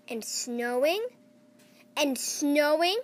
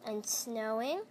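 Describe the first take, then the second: First: Building louder. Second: Said in the usual way. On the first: A narrator's reading. Repeated snowing, building louder.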